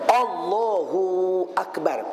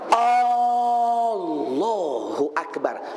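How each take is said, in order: First: The first A of Allah is short. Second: The first A of Allah is drawn out. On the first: The speaker calls it right. "Itu tak apa" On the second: The speaker calls it wrong. "Memanjangkan A. Ibarat menambah huruf istifham"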